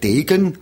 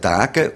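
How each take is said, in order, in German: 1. Der erste Vokal klingt wie ein e. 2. Der erste Vokal klingt wie ein a. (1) "Eigentlich sagt man in der ganzen Schweiz den Namen" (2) "Nur in Basel selber sagt man Degen"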